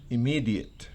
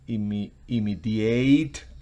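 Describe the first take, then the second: First: The stress is on the second syllable. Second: The stress is on the last syllable. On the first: It is an adjective. "cuando es un adjetivo" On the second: It would be a verb. "con el acento al final"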